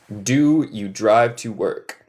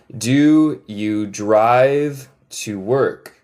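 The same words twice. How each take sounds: First: Moderately slow, words more connected; careful, slightly slowed teaching pace; measured model question. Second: Very slow, every word stretched; slow model question. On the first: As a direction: say the question steadily for learners. Repeats question less slowly. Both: Shown as a demonstration.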